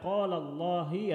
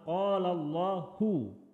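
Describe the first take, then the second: First: Allah ends with an i vowel. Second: Allah ends with a u vowel. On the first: The speaker calls it wrong. "Tidak boleh dibaca" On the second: The speaker calls it right. "kata Allah harus dibaca dhammah"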